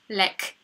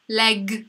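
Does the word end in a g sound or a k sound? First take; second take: k; g. First: The word ends with a voiceless k sound. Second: The word ends with a voiced g sound. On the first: The speaker calls it wrong. "To nie jest lek. Nie mówimy lek" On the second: The speaker calls it right. "To jest G"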